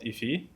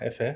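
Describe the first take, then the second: First: The vowels sound like 'i'. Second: The vowels sound like 'e'. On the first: The speaker calls it wrong. "not Ifi" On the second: The speaker calls it right. "It's pronounced as Efe"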